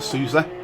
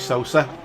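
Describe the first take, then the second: First: The first syllable sounds like 'soo'. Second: The first syllable sounds like 'so'. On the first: The speaker calls it wrong. "I was pronouncing it Sousa, which to someone in the U K that's how it's pronounced" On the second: The speaker calls it right. "but it's obviously Sosa"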